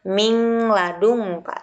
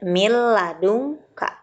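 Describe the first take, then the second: First: A nasal ng sound is kept before the l. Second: The n merges fully into a doubled l. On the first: The speaker calls it wrong. "bukan mingladunka" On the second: The speaker calls it right. "Seperti huruf bertasydid"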